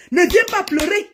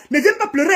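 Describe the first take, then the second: First: Raised heated repeat; angry threat repeated. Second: High-pitched menacing warning; higher, heated threat; angry threat. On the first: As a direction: hammer the warning home. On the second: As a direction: warn her off, fuming. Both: Real, not acted. Threatening rival.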